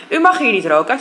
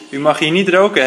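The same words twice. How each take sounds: First: "U mag hier niet roken" with "mag" raised, a polite but firm warning; firm objection. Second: "roken" falling, said flatter and final; repeated warning. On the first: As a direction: stress on mag, rising and firm. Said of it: "zegt Jesper". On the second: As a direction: repeat it with a closing fall on "roken". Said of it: "herhaalt Jesper". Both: Acted.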